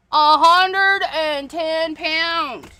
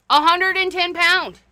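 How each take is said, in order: First: "A hundred and ten pound" drawn out very slowly, each word weighed; slow emphasis. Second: Said in the usual way. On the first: Real, not acted. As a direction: stretch it out to stress how heavy it is.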